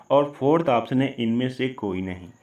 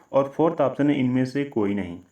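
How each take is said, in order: No difference in how they are said.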